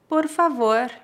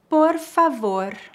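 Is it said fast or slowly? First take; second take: fast; slowly. First: It is said at natural speed. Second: It is said very slowly. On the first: "2 vezes mais naturalmente" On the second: "uma vez bem devagar"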